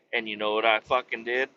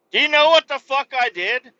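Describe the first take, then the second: First: Said in the usual way. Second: Higher and louder repeat of the question; worked-up storyteller forcing the punchline question; loud demand. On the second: Real, not acted. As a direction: push the question at the listener hard.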